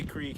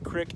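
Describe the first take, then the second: First: It is said with a general American pronunciation. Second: It is said with a Southern Missouri pronunciation. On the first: "They don't say creek" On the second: "They say creek in Missouri"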